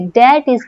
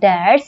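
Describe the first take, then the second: First: It is said as two separate words. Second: It is said as one contracted word. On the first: "डैट इज को हम pronounce कर सकते हैं डैट्स" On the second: "pronounce कर सकते हैं डैट्स"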